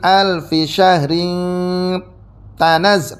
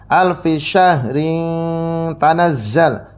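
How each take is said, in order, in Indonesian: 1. Bunyi t setelah syahrin ditahan dan dobel. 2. Bunyi t setelah syahrin pendek dan tunggal. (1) "tanya ditasydidkan ketika diwasolkan" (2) "dibaca seperti biasa ya"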